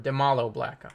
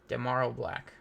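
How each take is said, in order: First: The middle consonant is an L sound. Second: The middle consonant is an R sound.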